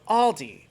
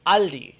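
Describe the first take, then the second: First: "Aldi" with a rounded aw, AWL-dee; English pronunciation. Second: "Aldi" with an open ah, AHL-dee; German pronunciation. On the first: YouTuber offers viewers the other version, English pronunciation. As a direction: say "Aldi" the American way, first vowel aw. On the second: YouTuber teaches viewers the name, German pronunciation. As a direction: say "Aldi" the German way, first vowel ah. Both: Shown as a demonstration. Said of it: "teach you guys how to pronounce".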